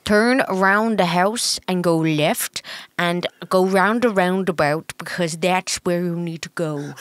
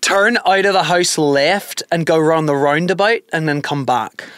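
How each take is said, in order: First: Slow, muddled Irish with a Dutch tinge; botched Irish accent. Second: Slow Irish accent demo. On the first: Partner failing to copy host's accent, muddled Irish accent. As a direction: badly imitate an Irish accent. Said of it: "like, Dutch and". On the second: Host setting an accent test for partner, Irish accent. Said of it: "it was Irish". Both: Shown as a demonstration.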